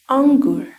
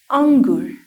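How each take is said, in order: The two takes are said the same way.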